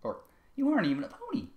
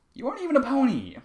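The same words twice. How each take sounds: First: Calmer redo. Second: Put-on high, louder shouted child line; yelling take. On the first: Acted. Sweetball challenges Trevor again, redone without yelling. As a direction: pull it back from the yell. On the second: Sweetball challenges Trevor in a yelled first take. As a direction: yell it out too hard. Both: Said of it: "I can't do fucking Sweetball with all this yelling".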